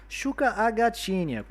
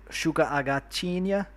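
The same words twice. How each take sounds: First: High, singsong Brazilian Portuguese accent. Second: Said in the usual way. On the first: Shown as a demonstration. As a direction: say it much higher, like a Brazilian. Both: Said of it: "como sotaque brasileiro".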